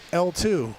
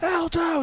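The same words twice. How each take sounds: First: The call is said at a normal loudness. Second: The call is said at its loudest. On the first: The first call gets no response. "you say it louder" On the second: The call is repeated again, still without a response. "and then louder"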